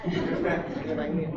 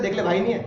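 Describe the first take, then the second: First: Slower, much softer, pleading guilt trip; guilt-tripping plea. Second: Said in the usual way. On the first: Retold or imitated. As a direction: lay the guilt on gently, drawn out. Teacher acts moral pressure between friends. (धीमी, दबी आवाज़ में भावुक दबाव)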